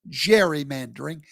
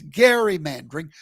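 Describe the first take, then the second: First: The word begins with a soft J sound. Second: The word begins with a hard G sound. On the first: The speaker calls it wrong. "It's not gerrymandering" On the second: The speaker calls it right. "it's gerrymandering"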